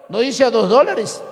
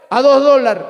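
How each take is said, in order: First: "a dos dólares" with every S clearly sounded; S pronounced. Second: "A dos dólares" with the S swallowed, "a ðo ðolaɾ"; coastal pronunciation, dropped S. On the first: Preacher corrects the coastal form for the congregation, S pronounced. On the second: Preacher mimics coastal speech to the congregation, S swallowed. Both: Shown as a demonstration.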